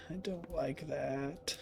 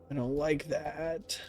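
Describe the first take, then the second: First: Near-silent, slow, frightened; scared whisper. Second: Hushed, slow and uneasy; scared murmur. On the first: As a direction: barely breathe the words out. Repeated, even quieter. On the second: Scared whisper in horror game. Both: Real, not acted.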